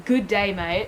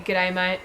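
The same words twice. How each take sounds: First: "Good day" as two full, separate words; misspelt g'day, read literally. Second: "G'day" run together as one contracted word; casual contracted "G'day", stress on day; proper Aussie g'day. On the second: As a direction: shorten good to a quick g in "G'day". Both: Shown as a demonstration. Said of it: "that's not how you spell g'day".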